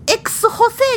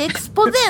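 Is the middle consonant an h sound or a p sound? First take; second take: h sound; p sound. First: The middle consonant is an h sound. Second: The middle consonant is a p sound. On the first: The speaker calls it wrong. "じゃなくて" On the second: The speaker calls it right. "エクスポゼなのね"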